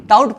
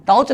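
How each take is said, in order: First: "टाउट" ending in a t sound; correct "taught" pronunciation. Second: "टाउच" with a final ch sound; wrong "taught" pronunciation. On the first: Teacher gives students the right reading, "टाउट" with final t. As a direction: close "टाउट" on a hard t, not ch. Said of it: "टाउट पढ़ना है". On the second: Teacher warns students against this reading, mispronounced "टाउच" ending in ch. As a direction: end "टाउच" on ch where t belongs. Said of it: "टाउच नहीं पढ़ना है". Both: Shown as a demonstration.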